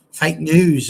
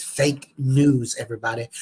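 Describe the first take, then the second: First: Said in the usual way. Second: A mock Trump-style American accent drawling fake news; bad American accent. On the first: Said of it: "That was the worst American accent". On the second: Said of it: "That was the worst American accent I've gone for".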